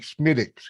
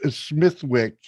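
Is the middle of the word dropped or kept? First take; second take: dropped; kept. First: The middle of the word is dropped. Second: The middle of the word is fully pronounced.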